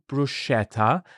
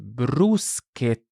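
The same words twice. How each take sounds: First: The middle consonant is a soft ch sound. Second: The middle consonant is a hard k sound. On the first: The speaker calls it wrong. "So it's not bruschetta" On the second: The speaker calls it right. "it's bruschetta. / with a hard k"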